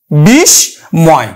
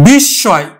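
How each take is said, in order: First: বিস্ময় said very slowly as "bis-moy", s and m both sounded; Sanskrit pronunciation. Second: বিস্ময় said as "bissoy", doubled s, no m; Bengali pronunciation. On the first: Teacher showing students the Sanskrit reading, very slow. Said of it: "উচ্চারণ হবে কিন্তু বিস্ময়". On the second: Teacher showing students the Bengali reading. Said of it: "উচ্চারণ আমরা করব Bangla". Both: Shown as a demonstration.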